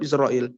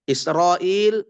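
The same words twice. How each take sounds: First: "Israel" with a thick, rounded "ro"; heavy ra. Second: "Israel" with a thin, open "ra"; "Israel" as the mistaken light reading; wrong light ra. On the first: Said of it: "tetap Israel". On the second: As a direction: keep "Israel" unrounded, as "isra-il". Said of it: "tidak berubah menjadi Israel". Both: Shown as a demonstration.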